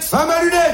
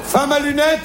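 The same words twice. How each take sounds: First: Raised proverb. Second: Said in the usual way. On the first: Shown as a demonstration. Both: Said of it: "les Chinois disent".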